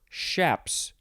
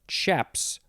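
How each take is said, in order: First: The word begins with an 'sh' sound. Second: The word begins with a 'ch' sound. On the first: "or an S H" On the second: "You could pronounce the beginning with a C H"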